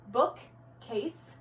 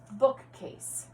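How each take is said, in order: First: "Bookcase" split as book, pause, case; segmented syllables. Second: Said in the usual way. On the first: Shown as a demonstration. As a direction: clap out "Bookcase" in two separate beats, book... case. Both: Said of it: "combining and segmenting syllables".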